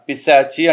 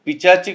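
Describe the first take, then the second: First: The middle consonant is an 'sh' sound. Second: The middle consonant is a 'ch' sound. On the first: The speaker calls it right. "పిశాచి అంటారు" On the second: The speaker calls it wrong. "అది పిచాచి కాదురా"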